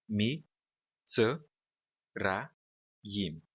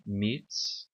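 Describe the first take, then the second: First: "mi, tse, ra, yim" with the sheva voiced as its own beat; four separate syllables. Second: Mitzrayim broken into three beats, mits, ra, yim; three separate syllables. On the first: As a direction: sound out "mi, tse, ra, yim" one syllable at a time, pausing after each. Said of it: "nós teríamos a sílaba assim". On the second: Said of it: "está dividida em três sílabas aqui". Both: Shown as a demonstration.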